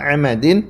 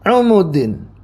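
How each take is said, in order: First: The first two vowels are a sounds. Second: The first two vowels are u sounds. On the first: "seperti biasa" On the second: "ain dan mimnya di dhammah"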